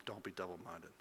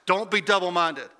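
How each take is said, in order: First: Much softer, lower reading of the line; soft earnest close. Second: Higher, louder call to hold firm; rally them like a coach; urgent rallying charge. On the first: Pastor reads James's words to the congregation: soft, low and earnest. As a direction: let it land gently and seriously. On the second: James urges hurting believers: higher, louder rallying charge. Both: Retold or imitated.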